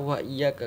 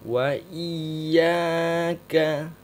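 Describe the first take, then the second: First: Said in the usual way. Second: "Wa iyaka" very slow and loud, leaning on the doubled y; chanted Quranic recitation of "Wa iyaka"; stressed doubled ya. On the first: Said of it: "Jangan dibaca". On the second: Shown as a demonstration. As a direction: draw out "Wa iyaka" with a strong press on "iyaka". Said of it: "kasih penekanan".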